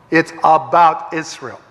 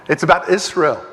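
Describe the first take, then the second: First: "Israel" said slowly, each word weighted, falling at the end; deliberate, slowed restatement; slow emphatic repeat. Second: Said in the usual way. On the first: Shown as a demonstration. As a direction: drive home "about" with a slow falling stress.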